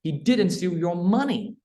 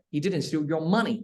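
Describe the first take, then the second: First: Money lifted high, very slow; stress on MONEY. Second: Slow, money leaned on; stress on MONEY. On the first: Teacher to student, stressing money. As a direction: stretch and raise money at the end. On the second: Teacher repeating, stress on money. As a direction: land on money as if something else was taken. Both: Shown as a demonstration. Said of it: "chữ, chữ money đi".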